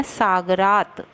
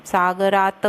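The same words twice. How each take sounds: First: सागरात said tight, without an extra a; correct सागरात. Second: सागरात with a drawn-out extra a, the wrong way; the mistaken sa-ga-raat reading. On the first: Teacher giving students the correct सागरात. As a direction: say सागरात as saagraat. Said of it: "सागरात बोलना है". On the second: Teacher showing students the wrong सागरात. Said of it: "सागरात नहीं". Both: Shown as a demonstration.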